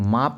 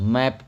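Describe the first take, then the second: First: The vowel is an open, long 'ah' sound. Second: The vowel is the front 'a' of cat. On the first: The speaker calls it wrong. "अब इसको माप मत पढ़िएगा" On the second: The speaker calls it right. "मैप पढ़िएगा।"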